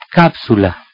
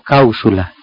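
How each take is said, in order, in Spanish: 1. La p antes de la s se pronuncia. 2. La p se convierte en una vocal parecida a la u. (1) "sigamos mejor con el grupo PS" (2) "y no"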